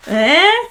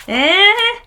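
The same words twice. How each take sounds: First: Higher and louder teasing eh; playful eh. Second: Much higher, louder eh, pushed further; bigger playful eh. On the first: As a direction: nudge the viewer, pleased. Showing off matching birth flowers. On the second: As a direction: top the first one with glee. Repeated, even more delighted. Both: Real, not acted.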